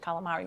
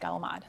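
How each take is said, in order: First: The word ends with a full final vowel. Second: The word ends without its final vowel. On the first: This is how outsiders say it. The speaker calls it wrong. "we don't say calamari" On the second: This is how their community says it. The speaker calls it right. "We say calamad"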